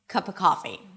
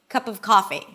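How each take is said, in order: First: 'Of' is just 'uh' with no V. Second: 'Of' is a schwa with the V kept.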